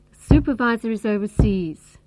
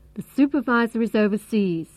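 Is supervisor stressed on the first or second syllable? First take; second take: first; first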